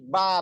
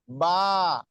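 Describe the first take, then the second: First: The vowel is held short. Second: The vowel is held long. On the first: "kalau tanpa mat" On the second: "kalau ditambahin mat"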